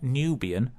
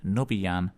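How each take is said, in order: First: "Nubian" with a long "new" first syllable; wrong pronunciation of Nubian. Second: "Nubiyan" as NUB-ee-an, short first vowel; corrected pronunciation of Nubiyan. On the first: Presenter shows how not to say the band's name, "Nubian" as NEW-bee-un. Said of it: "so it's not Nubian". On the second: Presenter corrects the band's name, "Nubiyan" as NUB-ee-an. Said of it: "it's not Nubian". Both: Shown as a demonstration.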